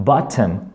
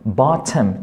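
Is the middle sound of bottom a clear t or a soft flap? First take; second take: clear t; clear t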